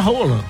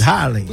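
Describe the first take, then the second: First: The name is said with its native Norwegian pronunciation. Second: The name is said with a Brazilian pronunciation. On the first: This is how the player's own language says it. "a pronúncia mesmo na língua deles é Rola" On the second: This is the version Brazilians adopted. "mudaram o nome do cara pra Haaland"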